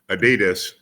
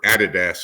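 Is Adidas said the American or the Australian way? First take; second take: American; Australian. First: It is said with an American pronunciation. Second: It is said with an Australian pronunciation.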